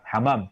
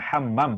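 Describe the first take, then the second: First: The m sound is single and short. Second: The m sound is doubled and held longer. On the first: It means doves. The speaker calls it wrong. "tanpa double mim" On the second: It means a bathroom. The speaker calls it right. "double mim"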